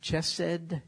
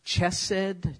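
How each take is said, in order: First: It begins with an English 'ch' sound. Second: The same.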